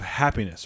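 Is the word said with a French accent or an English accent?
English. It is said in plain English, with the H.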